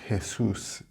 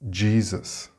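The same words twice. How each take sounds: First: It begins with a throaty H sound, Spanish style. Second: It begins with a J sound and has a Z. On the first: The speaker calls it wrong. "If you say Jesus in English, nobody will know what you are talking about" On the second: The speaker calls it right. "the correct pronunciation in English is Jesus"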